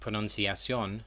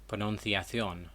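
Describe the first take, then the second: First: The 'ci' is said with an s sound. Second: The 'ci' is said with a th sound. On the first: This is how it is said in Latin America. "in Latin America, C I is pronounced as an S sound" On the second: This is how it is said in Spain. "it's pronounced as a th sound in Spain"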